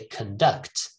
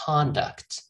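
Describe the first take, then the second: First: The first syllable is weak, a schwa. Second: The first syllable is full and stressed. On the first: It is used as a verb. "if it is a verb" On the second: It is used as a noun. "If it is a noun"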